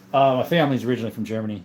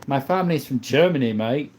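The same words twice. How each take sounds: First: Said in the usual way. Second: Playful put-on British accent. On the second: Telling viewers where the family is from, British accent. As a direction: lay on a matey British accent. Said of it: "I stop your British hate".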